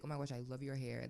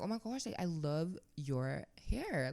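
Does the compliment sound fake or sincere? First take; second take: sincere; fake. First: It sounds natural and sincere. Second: It sounds exaggerated and fake. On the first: The compliment is genuinely meant. The speaker calls it right. "But I would like" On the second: The compliment is not really meant. The speaker calls it wrong. "Obviously I wouldn't say like this. Like this sounds fake"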